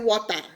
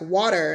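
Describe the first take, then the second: First: The T is pronounced clearly, Nigerian style. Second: The T is softened, American style. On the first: "We say water, water in Nigeria" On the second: "Then Americans are like water"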